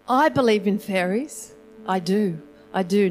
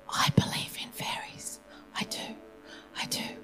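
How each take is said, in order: First: It is said in a louder voice. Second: It is whispered softly.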